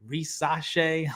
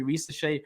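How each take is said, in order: First: "Risache" with an open middle, ree-SAH-shay; alternate broadcast pronunciation. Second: "Risache" with a light, unstressed middle, ree-suh-SHAY; one broadcast pronunciation. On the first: Host showing how broadcasters vary, "Risache" with an open "ah". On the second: Host showing how broadcasters vary, "Risache" with a reduced middle vowel. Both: Shown as a demonstration. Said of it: "pronounced five different ways".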